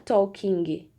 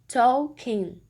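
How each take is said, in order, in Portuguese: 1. Ouve-se um som de G forte no final. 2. A palavra termina sem nenhum som de G. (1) "não é talking" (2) "a gente vai suprimir esse som"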